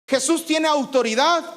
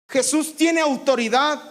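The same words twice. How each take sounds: The two takes are said the same way.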